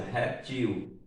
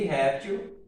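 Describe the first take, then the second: First: "reptil" stressed on the final syllable TIL; last-syllable stress on "reptil"; oxytone stress. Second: "réptil" stressed on the first syllable RÉP; penultimate-syllable stress on "réptil"; paroxytone stress. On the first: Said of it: "a mesma coisa". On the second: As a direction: say "réptil" as RÉP-til, ending light. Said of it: "projétil e réptil são duas palavras paroxítonas". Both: Shown as a demonstration.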